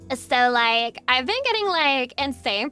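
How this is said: It is read in a put-on Valley Girl accent.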